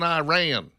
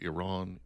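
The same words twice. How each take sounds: First: Iran is said with a rural Southern pronunciation. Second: Iran is said with a standard broadcast pronunciation. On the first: The speaker calls it wrong. "Iran just sounds a little rednecky to me" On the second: The speaker calls it right. "I learned in broadcasting school that it was pronounced Iran"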